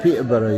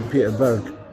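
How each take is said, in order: First: The name ends with a full 'borough' sound. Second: The name ends with a short 'burg' sound. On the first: This is how locals say it. "you say it Peterborough" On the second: This is how locals do not say it. "you don't say Peterburg"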